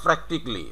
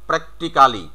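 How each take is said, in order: First: "practically" as PRAK-tik-lee; "practically" ending in "tik-li"; correct "practically". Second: "practically" as prek-ti-KAA-li; every written syllable of "practically" sounded; spelling-based "practically". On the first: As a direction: say "practically" in three syllables without "ca". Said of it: "সঠিক উচ্চারণটা হবে". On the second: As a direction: say "practically" with a full "kaa" before "li". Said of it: "এরকমই উচ্চারণ হবে". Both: Shown as a demonstration.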